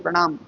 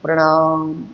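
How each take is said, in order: First: The word is said quickly and abruptly. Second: The word is slowly drawn out. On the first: It is said hastily without feeling. "फट से प्रणाम ऐसे बोल देते हैं" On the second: It is said with heartfelt feeling. "थोड़ा-सा लंबा खींच करके बोलते हैं"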